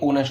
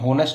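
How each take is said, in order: First: The word begins with a vowel, h silent. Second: The word begins with an h sound. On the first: The speaker calls it right. "ये ओनेस्ट होता है" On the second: The speaker calls it wrong. "होनेस्ट नहीं होता"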